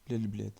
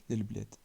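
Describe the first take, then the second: The two takes are said the same way.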